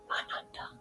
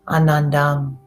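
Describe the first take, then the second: First: The word is said more softly. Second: The word is said out loud, fairly loudly.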